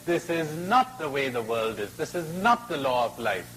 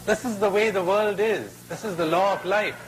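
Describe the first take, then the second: First: "not" lifted and leaned on, falling after; stress on NOT. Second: Raised, higher pronouncement; lightly voiced crocodile. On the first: Acted. Boy rebuts the crocodile, hard stress on "not". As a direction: contradict firmly, punching "not" each time. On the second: Crocodile lectures the trapped boy, higher and emphatic. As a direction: lay down the law, pitched up.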